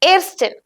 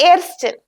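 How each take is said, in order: The two takes are said the same way.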